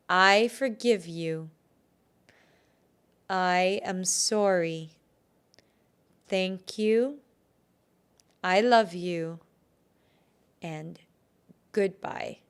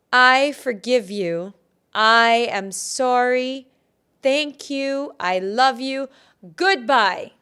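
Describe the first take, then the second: First: Slow, deliberate phrases, long pauses; repeat-after-me affirmation. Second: Much louder, emphatic, rising in pitch; forceful affirmation. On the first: Healer leads listeners before cutting the cord, slow deliberate affirmation. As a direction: lead them phrase by phrase, slowly. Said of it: "So repeat after me". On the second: Healer does the release over again, loud forceful affirmation. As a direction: proclaim each phrase loudly, with shorter pauses. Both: Shown as a demonstration.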